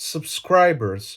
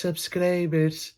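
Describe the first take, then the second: First: SUBSCRIBERS slowly, in careful native English; authentic English accent. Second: SUBSCRIBERS slow and soft in a Greek accent. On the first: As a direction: model "subscribers" with an English r, softly. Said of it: "Ή πες το με την ελληνική προφορά". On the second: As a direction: model "Subscribers" with plain Greek vowels. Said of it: "πες το με την ελληνική προφορά". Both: Shown as a demonstration.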